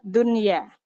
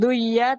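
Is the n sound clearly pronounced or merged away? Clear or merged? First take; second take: clear; merged. First: The n sound is pronounced clearly before y. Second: The n sound merges into the following y. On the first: The speaker calls it right. "nunnya tetap terang" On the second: The speaker calls it wrong. "bukan duya"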